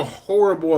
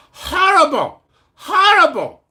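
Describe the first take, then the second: First: Said in the usual way. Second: High, loud mock North Korean accent. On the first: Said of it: "not horrible". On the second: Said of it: "That's a North Korean accent".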